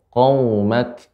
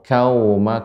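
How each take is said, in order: First: The first consonant is a deep throat q. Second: The first consonant is a light front k. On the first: The speaker calls it right. "lebih dalam lagi sehingga pengucapannya ko" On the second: The speaker calls it wrong. "Tadi terdengar seperti kau"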